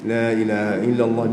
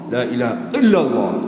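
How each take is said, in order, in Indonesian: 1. Huruf l bertasydid itu ditekan terlalu longgar dan asal-asalan. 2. Huruf l bertasydid itu ditekan terlalu keras. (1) "jangan terlalu longgar sangat, cuai sangat" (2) "Ha itu dia tekan terlalu kuat sangat kan"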